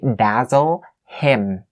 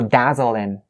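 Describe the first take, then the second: First: The H is pronounced at the start of him. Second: The H is dropped and the words run together. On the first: The speaker calls it wrong. "You don't say dazzle him" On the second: The speaker calls it right. "the H sound is one of the very weak sounds"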